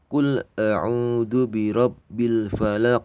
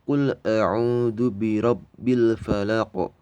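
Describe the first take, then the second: First: The final q runs on without a bounce. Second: The final q is stopped with a bouncing echo. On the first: "kalau misalnya diteruskan bacaan qol-qol aku Bro-nya tadi hilang ya" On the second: "lebih baik disukunkan, jadi dimatikan. Jadi mantulnya di sini ya"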